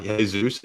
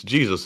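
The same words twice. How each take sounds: First: Jesus said as hay-ZOOS; the Spanish Jesus, H sound for J; Spanish pronunciation. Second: Jesus said as JEE-zus, correcting the name; English pronunciation. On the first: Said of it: "y'all got me messed up now". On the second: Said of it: "it's not Jesus". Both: Shown as a demonstration.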